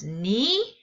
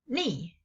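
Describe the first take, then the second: First: The pitch rises across the syllable. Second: The pitch falls sharply across the syllable. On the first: "The second tone is Ni, Ni, sort of like what" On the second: "the last one is Ni"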